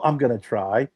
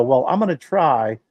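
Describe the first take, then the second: First: Said in the usual way. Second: Mocking tryhard cook. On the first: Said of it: "No, don't". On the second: Mocking the cook who wants to change the recipe, mock earnest. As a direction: parody someone tinkering with the recipe. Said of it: "Don't go".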